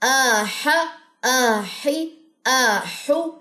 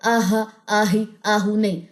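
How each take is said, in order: First: The ḥa sound is clear and strong. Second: The ḥa sound is faint and thin. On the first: The speaker calls it right. "हा को वाज़ा करना है" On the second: The speaker calls it wrong. "इसको बारीक नहीं पढ़ना"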